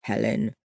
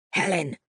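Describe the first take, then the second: First: Said in the usual way. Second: Sharp hissed warning; hissed name. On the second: A narrator's reading. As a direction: hiss the name at her. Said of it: "He hissed her name".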